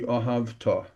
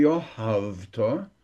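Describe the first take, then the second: First: Ohavta with a full, firm TA; stress on last syllable. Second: Slow Ohavta leaning on HAV, ending rising; weak final ta in Ohavta after strong HAV; stress before last syllable. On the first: Teacher corrects the word, Ohavta stressed on final TA. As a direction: land on the end of Ohavta, falling. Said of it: "Not the Ohavta". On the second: Teacher shows what not to say, Ohavta stressed on HAV. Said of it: "before the last syllable". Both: Shown as a demonstration.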